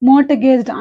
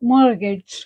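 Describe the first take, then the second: First: A t sound is pronounced in the middle. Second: No t sound is pronounced in the middle. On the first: The speaker calls it wrong. "మోర్టగేజ్డ్ అనకూడదు" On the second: The speaker calls it right. "మోర్గేజ్డ్ ఆర్ మోర్గేజ్డ్ ఇలా అనాలి"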